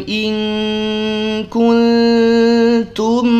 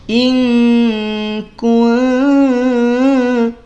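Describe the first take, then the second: No difference in how they are said.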